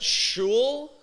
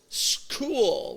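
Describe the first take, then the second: First: The word begins with an 'sh' sound. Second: The word begins with an 'sk' sound. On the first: The speaker calls it wrong. "Is that shul?" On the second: The speaker calls it right. "make it sound like a K"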